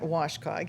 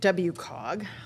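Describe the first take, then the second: First: The acronym is said as a single word. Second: Each letter of the acronym is said separately. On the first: "You're Washcog" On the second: "how do you guys pronounce it?"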